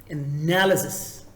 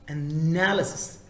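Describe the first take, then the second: The two takes are said the same way.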